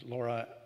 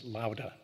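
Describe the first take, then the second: First: The middle consonant is an English r. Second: The middle consonant is a quick tap. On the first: The speaker calls it wrong. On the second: The speaker calls it right.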